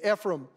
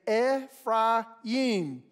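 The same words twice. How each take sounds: First: Said in the usual American English style. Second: Said in Hebrew style as eh, fry, yim. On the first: "But in America, we would typically say Ephraim" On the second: "We would say Ephraim. Eh would be the first syllable. The second syllable would be like our American word fry"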